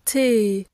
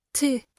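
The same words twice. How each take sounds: First: T held long and steady. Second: T clipped short at the end. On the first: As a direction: let the T ring out. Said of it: "Le son peut être long". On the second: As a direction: cut the T off. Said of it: "essayez de le raccourcir". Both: Shown as a demonstration.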